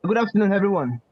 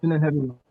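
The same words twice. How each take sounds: First: Louder, projecting to be heard; speaking louder. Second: Said in the usual way. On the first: Real, not acted. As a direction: raise your voice for the room. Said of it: "can you speak louder". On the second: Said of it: "Louder, please".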